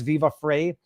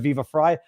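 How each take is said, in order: First: The surname rhymes with 'fray'. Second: The surname rhymes with 'fry'. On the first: The speaker calls it wrong. "anybody who says Viva Frey instead of" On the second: The speaker calls it right. "instead of Viva Fry"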